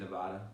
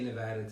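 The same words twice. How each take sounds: First: It is said with the New York pronunciation. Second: It is said with the local Nevadan pronunciation. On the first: The speaker calls it right. "I want to say Nevada" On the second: The speaker calls it wrong. "even when I say Nevada to this day"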